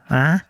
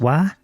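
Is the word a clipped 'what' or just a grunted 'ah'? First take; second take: ah; clipped. First: The word is reduced to a grunted 'ah'. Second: The word is clipped and left unfinished. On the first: "E já em Limerick é pior ainda, o cara meio que resmunga" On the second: "Aqui em Cork eles praticamente resmungam... Eles não completam a palavra"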